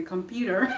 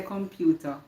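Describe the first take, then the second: First: "computer" in a put-on non-Jamaican accent, r sounded. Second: "computer" the Jamaican way, with an open ending and no r; Jamaican pronunciation. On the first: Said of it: "put on the accent and say". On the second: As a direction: say "computer" as in Jamaica, full first vowel. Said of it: "in Jamaica, you say computer". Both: Shown as a demonstration.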